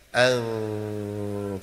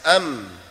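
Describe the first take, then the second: First: The m is muffled, with lips slightly apart. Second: The m is clear, with lips fully closed. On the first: "Agak renggang sedikit" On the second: "Kalau rapat jelas"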